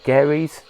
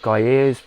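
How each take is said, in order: First: The first syllable sounds like 'gare'. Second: The first syllable sounds like 'guy'. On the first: This is how the speaker always says it. "I've always pronounced it Gary's" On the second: This is how other people say it. "people pronounce it Guyers"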